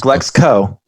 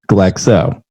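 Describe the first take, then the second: First: A k sound comes before the final o. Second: No k sound comes before the final o. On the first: The speaker calls it wrong. "Not Glexco" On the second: The speaker calls it right. "no C in Glexo"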